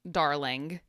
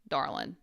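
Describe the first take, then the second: First: The word ends with a full final g. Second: The word ends without the final g. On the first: "not the full darling" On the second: "the southern or country version is darlin'"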